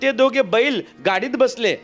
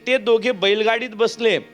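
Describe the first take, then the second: First: It has a pause right after 'बैल'. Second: It is said smoothly without a pause.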